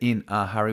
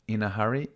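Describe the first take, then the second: First: The words are said separately, without linking. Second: The words are linked together smoothly. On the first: The speaker calls it wrong. "We don't say" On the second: The speaker calls it right. "we say"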